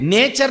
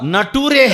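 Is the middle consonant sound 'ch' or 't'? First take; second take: ch; t. First: The middle sound is 'ch', ending in 'cher'. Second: The middle sound is 't', ending in 'toore'. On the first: The speaker calls it right. "నేచర్ నహీ హై" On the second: The speaker calls it wrong. "నటూరే హై"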